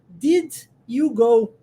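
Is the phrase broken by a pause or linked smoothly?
paused. The phrase is broken up with a pause. The speaker calls it wrong. "olha como é que a gente quebra a frase ... eu acabo criando uma pausa"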